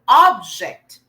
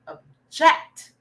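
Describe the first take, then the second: First: The stress is on the first syllable. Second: The stress is on the second syllable. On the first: It is a noun naming a thing. "if it's a noun, usually the stress is in the first syllable" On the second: It is a verb. "it's a verb, object. So the, s- the stress is more on the jet"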